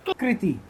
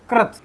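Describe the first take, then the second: First: कृति as "kriti"; isolated "kri-ti" for कृति; contrast demo. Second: कृत as "krat"; isolated "krat" for कृत; contrast demo. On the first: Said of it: "और ये हो गई". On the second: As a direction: say कृत with an "a" vowel. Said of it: "ये तो हो गए". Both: Shown as a demonstration.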